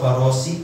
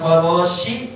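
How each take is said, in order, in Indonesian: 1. Konsonan itu diucapkan dengan bunyi s biasa. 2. Konsonan itu diucapkan dengan bunyi sh. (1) "kenapa nggak ada titiknya" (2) "pakai spesial ini ada telurnya tiga di atasnya"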